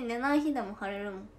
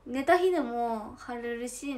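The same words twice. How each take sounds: First: い of 寝ない leaned on, falling; weight on 寝ない, contrasting 寝た; 寝ない stressed, voice falling. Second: 寝た stretched and lifted at the end, slow; 寝た drawn out, rising; stress on 寝た. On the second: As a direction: lean on 寝た, slow with a rising tune. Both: Shown as a demonstration.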